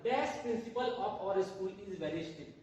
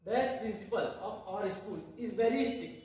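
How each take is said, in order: First: Very slow, word by word, stress on Dash; teacher reads the last example aloud, very slowly; slow dictation. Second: Very slow, word by word, stress on very; teacher rereads the example sentence to students, very slowly; slow dictation again. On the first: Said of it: "हमारा last example है". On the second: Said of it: "तो ये देखिए". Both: Shown as a demonstration.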